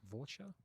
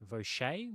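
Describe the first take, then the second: First: The name is said like the English word voucher. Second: The name is said with a French pronunciation. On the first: "Like a Vaucher" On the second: "If you're French-Canadian"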